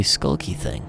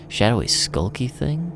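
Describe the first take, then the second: First: Said in the usual way. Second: Slow, incredulous echo, rising at the end; mocking disbelief. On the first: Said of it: "Hey, how about you do your shadowy". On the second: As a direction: throw the phrase back, mocking how childish it is. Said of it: "Jesus, kid".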